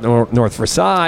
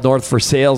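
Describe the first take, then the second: First: Versailles is said with a non-local pronunciation. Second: Versailles is said with the local pronunciation. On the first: This is how newcomers might say it. The speaker calls it wrong. "not North Versailles" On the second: This is how people in town say it. The speaker calls it right. "when you get to town, you get oriented that it's called North Versailles"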